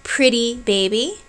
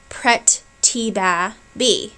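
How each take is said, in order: First: Said in the usual way. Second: Slow "pret ti ba bi", each syllable cut apart; wrong syllable split. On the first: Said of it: "the example I have here". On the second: Shown as a demonstration. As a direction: chop "pret ti ba bi" into separate beats. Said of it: "as opposed to prit-ti-ba-bi".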